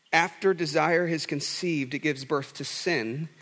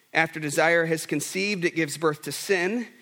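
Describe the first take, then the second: The two takes are said the same way.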